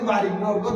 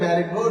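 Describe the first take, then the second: First: The first vowel is an open 'ah' sound. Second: The first vowel sounds like the 'a' in 'cat'. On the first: This is how Bengali speakers say it. The speaker calls it wrong. "এটা বাঙালির সবাই বারিক road বলে" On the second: This is how English speakers say it. The speaker calls it right. "এটা হুজুর এটা ব্যারিক road"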